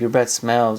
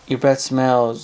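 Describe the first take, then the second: First: It is said in a harsh, disgusted tone. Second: It is said in a gentle, caring tone. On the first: The partner is being insulted. The speaker calls it wrong. "So don't be like" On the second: The partner is being told kindly. The speaker calls it right. "Just say"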